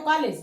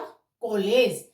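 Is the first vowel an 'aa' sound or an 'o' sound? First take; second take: aa; o. First: The first vowel is a plain 'aa' sound. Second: The first vowel is an open 'o' sound. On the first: "जैसे है तो कॉलेज" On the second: "तो कैसे बोला जाएगा English का"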